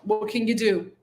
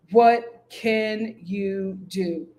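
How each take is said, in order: First: Said in the usual way. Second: What can you do, stretched out slowly; slow resigned drawl. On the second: Real, not acted. Shrugging off Antonio's situation, slowly drawn out. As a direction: let it hang, slow and resigned.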